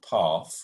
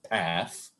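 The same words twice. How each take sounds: First: It is said with a British accent. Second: It is said with an American accent.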